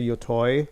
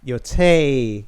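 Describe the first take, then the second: First: The last syllable sounds like 'toy'. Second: The last syllable sounds like 'tay'.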